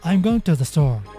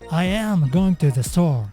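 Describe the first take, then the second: First: I and am merge into one short syllable. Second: I and am are said as two full words. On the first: "example sentences using contraction" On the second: "the original sentence"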